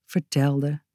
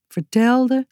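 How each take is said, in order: First: Vertelde softer and lower, trailing off; fading vertelde. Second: Said in the usual way. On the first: A narrator's reading. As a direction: let vertelde fade away. Repeated, fading.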